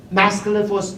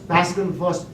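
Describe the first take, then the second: No difference in how they are said.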